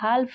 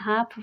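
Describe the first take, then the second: First: An l sound is heard before the f. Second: No l sound is heard before the f. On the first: The speaker calls it wrong. "इसको हाल्फ नहीं" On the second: The speaker calls it right. "हाफ पढ़ते हैं"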